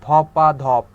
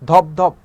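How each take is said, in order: First: A vowel follows the first syllable. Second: No vowel follows the first syllable. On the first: "এই ধপের পরে একটা আ আনলাম" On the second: "এভাবে না বলে"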